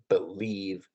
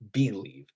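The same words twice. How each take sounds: First: The stress is on the second syllable. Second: The stress is on the first syllable. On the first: The speaker calls it right. "Those sorts of words are in I ams" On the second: The speaker calls it wrong. "just like you wouldn't say"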